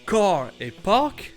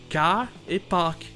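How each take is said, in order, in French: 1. La voyelle a sonne américaine générale. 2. La voyelle a sonne bostonienne.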